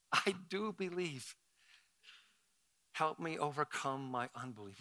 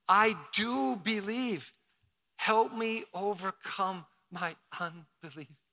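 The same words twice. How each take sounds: First: Soft, hushed father's plea; quiet plea. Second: Slow, sincere congregational prayer. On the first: Retold or imitated. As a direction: pray it softly. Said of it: "The boy's father who said". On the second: Shown as a demonstration. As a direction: say it slowly and mean it. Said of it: "Let's say it again".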